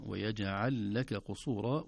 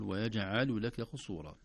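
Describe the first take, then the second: First: ويجعل لك قصورا slow, lam of لك kept silent and merged; slow model recitation; correct recitation. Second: ويجعل لك قصورا with a vowel added on the lam, yajʿalul; demonstrating the error; wrong reading. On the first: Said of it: "نراعي سكون اللام". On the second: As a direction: show the mistaken ويجعل لك قصورا. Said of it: "ولا نقول". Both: Shown as a demonstration.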